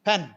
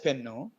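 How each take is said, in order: First: The word ends on its final consonant. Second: The word ends with an added u vowel. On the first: The word is spoken as English. The speaker calls it right. "you should come back and say pen" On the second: The word is used as a Telugu borrowing. The speaker calls it wrong. "using it as pennu"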